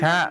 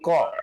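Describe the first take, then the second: First: The vowel sounds like an open 'a'. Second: The vowel sounds like a rounded 'o'. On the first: The speaker calls it right. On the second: The speaker calls it wrong. "bukan ko"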